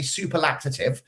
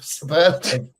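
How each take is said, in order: First: An extra 'lac' syllable is inserted mid-word. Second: The word is said without an extra syllable. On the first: The speaker calls it wrong. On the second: The speaker calls it right.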